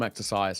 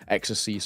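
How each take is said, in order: First: The name is pronounced in an English way. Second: The name is pronounced in a French way. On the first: This is how the speaker used to say it. "I always used to call him exercise" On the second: This is how the players themselves say it. "I've kind of changed it to uh, exercise off the back of him saying that"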